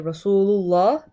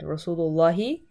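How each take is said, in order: First: The word ends without a final vowel. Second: The word ends with a final 'ee' vowel. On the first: The speaker calls it wrong. "the reason why we say Rasulullah" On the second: The speaker calls it right. "You have to say the he at the end"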